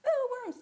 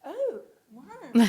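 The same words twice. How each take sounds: First: High, loud disgusted squeal. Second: Loud, fascinated awe. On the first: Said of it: "So it went from". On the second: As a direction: draw it out in wonder. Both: Retold or imitated.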